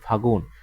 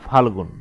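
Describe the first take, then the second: First: The word is said without an l sound. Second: The word is said with an l sound. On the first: This is the shortened everyday form. "দেখেন এই যে ল বাদ গেছে" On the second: This is the older written form. "আমরা যদি লিখি, এই যে ফাল্গুন"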